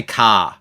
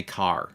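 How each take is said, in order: First: "car" said as "cah", with no r; non-rhotic "car". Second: "car" with a pronounced final r; rhotic "car". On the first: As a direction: drop the r at the end of "car". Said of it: "we don't say". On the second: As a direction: sound the r at the end of "car". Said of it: "we won't say car". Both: Shown as a demonstration.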